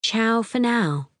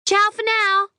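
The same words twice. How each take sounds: First: Slow, mocking repeat of ciao; sarcastic echo. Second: Very high, louder, sing-song ciao; tinkly sign-off. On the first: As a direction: drawl it back in disbelief. Narrator echoes the greeting. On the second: A narrator's reading. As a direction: trill the goodbye brightly. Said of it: "a tinkly voice says".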